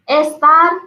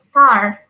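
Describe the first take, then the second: First: It is pronounced in a Spanish-style way. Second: It is pronounced in an English way. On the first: The speaker calls it wrong. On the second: The speaker calls it right.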